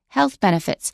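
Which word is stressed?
health. The stress falls on the word health. The speaker calls it right. "We say health benefits because health is a noun, benefits is a noun. We don't stress benefits"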